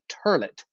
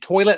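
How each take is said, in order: First: The word is said with an r, turlet. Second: The word is said in the standard way, toilet.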